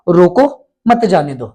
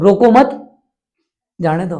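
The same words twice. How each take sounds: First: The pause comes right after 'roko'. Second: The pause comes right after 'mat'.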